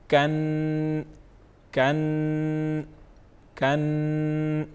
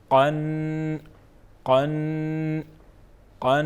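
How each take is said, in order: First: کن with a light front k; light kaf sound. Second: قن from deep in the throat; deep qaf sound. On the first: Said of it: "آئیے اس میں فرق جانتے ہیں". (کن ہلکی کاف کے ساتھ) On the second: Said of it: "کس طرح پراپر پڑھیں گے". (قن گہری قاف کے ساتھ) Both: Shown as a demonstration.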